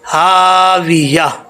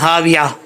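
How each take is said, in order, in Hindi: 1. h के बाद का स्वर लंबा खींचा जाता है। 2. h के बाद का स्वर छोटा कर दिया जाता है।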